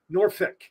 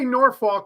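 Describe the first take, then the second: First: The second syllable ends in an ick sound. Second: The second syllable sounds like the word fork. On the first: "or ick, Norfolk, ick" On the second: "you don't say Norfolk like you would like a fork"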